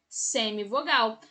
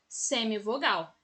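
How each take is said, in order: No difference in how they are said.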